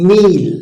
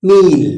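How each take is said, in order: The two takes are said the same way.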